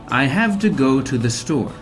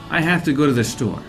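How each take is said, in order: First: Slow and clear, every word fully pronounced. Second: Quick, with have, to and to reduced. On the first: "If I'm trying to speak slowly and clearly" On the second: "if I'm speaking more quickly and naturally"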